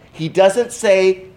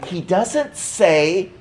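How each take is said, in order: Both takes have the same delivery.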